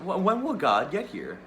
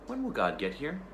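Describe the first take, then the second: First: Higher and louder, stumbling start; the girl demanding an answer; girl pressing the tiger, louder and urgent; insistent child. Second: Put-on higher, asking little girl; girl asking the tiger when God comes; child's question. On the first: Acted. Girl repeats demanding question. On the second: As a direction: innocent girl's question, pitched up. Girl asks about God.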